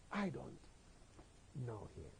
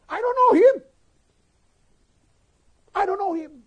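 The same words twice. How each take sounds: First: Low, very soft, halting words; hushed denial. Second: Very loud, high-pitched cry of denial; shouted denial. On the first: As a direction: let the denial sink away almost to nothing. Last denial, collapsing to quiet. (lirih, rendah, terputus-putus) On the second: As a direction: deny it at the top of your voice. (berteriak menyangkal dengan lantang) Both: Acted.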